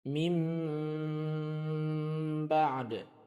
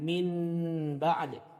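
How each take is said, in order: First: The nasal before b becomes an m. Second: The nasal before b is a clear n. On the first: The speaker calls it right. "nunnya dibalikkan menjadi mim" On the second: The speaker calls it wrong. "Kita tidak mengucapkan"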